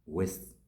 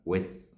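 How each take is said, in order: No difference in how they are said.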